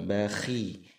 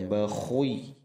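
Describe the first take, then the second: First: The kh sound is light and flat. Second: The kh sound is heavy and rounded. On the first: The speaker calls it right. "datar saja, jangan terlalu tebal" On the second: The speaker calls it wrong. "jangan dibaca bakhui, kurang tepat"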